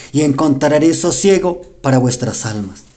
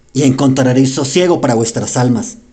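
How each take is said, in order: No difference in how they are said.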